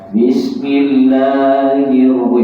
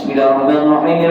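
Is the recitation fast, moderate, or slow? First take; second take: slow; fast. First: It is recited very slowly and drawn out. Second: It is recited quickly and hurriedly. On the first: It makes listeners drowsy. "Lambat sangat pun orang ngantuk. Lambat" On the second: The follower cannot catch the recitation. "Dia tidak boleh cepat. ... Itu tak boleh"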